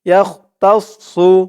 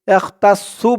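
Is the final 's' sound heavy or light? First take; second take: heavy; light. First: The 's' is heavy, with a full mouth. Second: The 's' is light and thin. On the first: The speaker calls it right. "সদের উচ্চারণটা করার সময় মুখটা একটু ভরপুর হয়ে যাবে" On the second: The speaker calls it wrong. "বলা যাবে না। সু বললে কিন্তু সিনের উচ্চারণ চলে আসবে"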